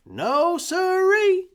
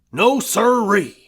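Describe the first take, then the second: First: Put-on much higher, slow sing-song child voice; eager boy. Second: Loud, falling No sirree; gruff denial. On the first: Young boy echoing Red, high and eager. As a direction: echo the old man brightly like a kid. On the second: Husband dismissing the doctor, loud and gruff. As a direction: shut it down flat and firm. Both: A narrator's reading.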